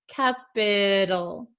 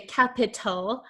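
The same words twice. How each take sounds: First: The middle consonant is a soft D-like flap. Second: The middle consonant is a crisp, sharp T. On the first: The speaker calls it right. "a flap T, which sounds like a soft D" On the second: The speaker calls it wrong. "like a true T sound"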